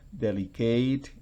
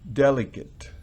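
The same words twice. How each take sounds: First: The stress is on the last syllable. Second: The stress is on the first syllable. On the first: It would be a verb. "Si fuera un verbo sería ... con el acento al final" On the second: It is an adjective. "cuando es un adjetivo"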